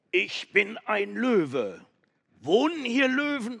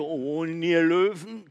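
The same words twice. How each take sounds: First: Loud call. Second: Distant echoing repeat. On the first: Goat shouting into the cave, loud. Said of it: "rief ganz laut". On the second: The cave echoing the goat's call, distant. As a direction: sound like the cave calling back. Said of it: "Und das Echo". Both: Acted.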